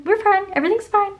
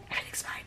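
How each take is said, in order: First: Much higher and louder; high-pitched, overdone all-is-well; breezy reassurance. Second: Very soft, voiceless repeat; whispered reassurance. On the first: Sister after yelling at her brother, high-pitched reassurance. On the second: Sister after yelling at her brother, whispered reassurance. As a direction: whisper it under the breath. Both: Acted.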